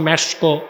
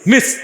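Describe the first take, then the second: First: It is said as 'mesko' with an extra final vowel. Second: It is said as 'misk' with no final vowel. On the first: This is how people locally say it. The speaker calls it wrong. "আমাদের দেশে মানুষ বলে" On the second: This is the original pronunciation. The speaker calls it right. "আসল উচ্চারণটা হচ্ছে"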